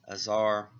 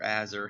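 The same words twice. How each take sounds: First: Azar with unstressed first syllable, long "zar"; alternate pronunciation. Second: Azar with short a, weak second syllable; alternate pronunciation. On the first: Reviewer unsure of a character's name, Azar as "uh-ZAR". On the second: Reviewer offering another reading, Azar as "AZ-er". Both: Shown as a demonstration. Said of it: "however you say that".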